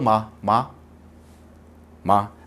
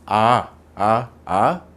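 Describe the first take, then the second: First: The word starts with a closed-lip m sound. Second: The word starts with an open vowel, no m. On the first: "मां बोलो" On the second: "अब होठ को दूर करके मां बोले"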